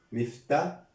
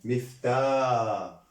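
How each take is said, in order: First: مفتا with a short, quick final "ta"; teacher sounding out مفتا with a brief ending; short final vowel. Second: مفتاح sounded as "miftaaa", last vowel held long; teacher drawing out the long vowel in مفتاح; long alif vowel. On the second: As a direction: stretch the "aa" of مفتاح. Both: Shown as a demonstration. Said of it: "ألف سكون".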